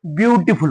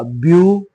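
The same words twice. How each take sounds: First: Said in the usual way. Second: "beautiful" broken into long, separated syllables. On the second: Shown as a demonstration. Teacher shows pupils how to say it, syllable by syllable. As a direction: sound out "beautiful" piece by piece with pauses. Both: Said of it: "तर ते आपल्याला बोलायचं कसा?".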